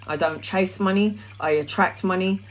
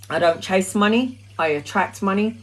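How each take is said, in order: Both takes have the same delivery.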